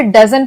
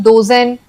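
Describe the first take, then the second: First: डजन with a short a sound; teacher's right way, डजन; correct dozen sound. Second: डोजन said with an o vowel; the mistaken डोजन, long o; teacher shows the error डोजन; wrong oh reading. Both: Shown as a demonstration. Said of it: "इसे हम डोजन नहीं पढ़ेंगे".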